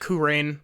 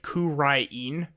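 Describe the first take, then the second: First: The name is said in an English style. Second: The name is said in a Japanese style. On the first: "Some people pronounce it" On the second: "the way that the anime pronounces it"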